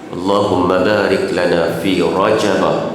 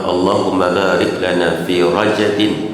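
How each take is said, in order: First: The word Rajab ends with an -a sound. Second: The word Rajab ends with an -in sound. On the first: "dibaca dengan mamnu' minas sarfi, iaitulah baca dengan Rajabah" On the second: "baca dengan Rajabin majrur"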